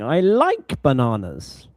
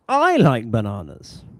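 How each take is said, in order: First: The stress falls on the word like. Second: The stress falls on the word I. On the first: The speaker does not dislike bananas. "no, I, I don't hate bananas" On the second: Unlike another person, the speaker likes bananas. "if you're comparing, uh, or you're comparing to another person"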